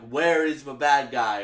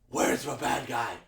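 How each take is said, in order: First: It is said in a plain, ordinary voice. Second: It is said in a stern, intimidating voice.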